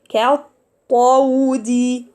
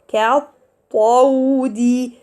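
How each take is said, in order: Both takes have the same delivery.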